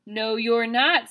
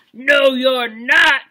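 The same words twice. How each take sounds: First: A hint of the troll, a little slow; only a touch of the grumpy troll; lightly voiced troll. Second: Loud, slow troll growl; angry troll. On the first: Teacher rereads the troll's line, a bit slow. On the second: Teacher voices the troll for kindergartners, loud and slow. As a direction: boom it out like a big angry troll. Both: Shown as a demonstration. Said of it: "said the troll".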